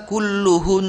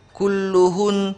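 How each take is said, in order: First: Kulluhun with the final 'n' hummed long; doubled nun at wakaf. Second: Kulluhun with a brief final 'n'; first reading. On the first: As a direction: hold the closing 'n' of kulluhun. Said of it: "Nunnya di-, ditasdid". (kulluhun dengan nun didengungkan panjang) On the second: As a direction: say kulluhun without holding the ending. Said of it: "ketika wakaf harus dibaca". (kulluhun tanpa dengung panjang) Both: Shown as a demonstration.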